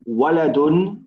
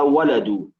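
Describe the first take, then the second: First: The word ends with an added n sound. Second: The word ends on a vowel, without n. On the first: The word is not being used to call someone. "If there's no ya, we keep the tanween" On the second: The word is used to call someone. "So we lose the tanween"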